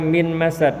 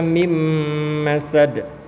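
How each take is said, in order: First: The n is pronounced clearly before the m. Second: The n merges into the following m sound. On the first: The speaker calls it wrong. "Tidak boleh dibaca min masad ya" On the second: The speaker calls it right. "tapi dibaca mim masad"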